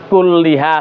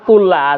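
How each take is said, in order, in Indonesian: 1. Vokal setelah l ganda adalah i. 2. Vokal setelah l ganda adalah a. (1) "jangan kulliha salah" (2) "kullaha salah"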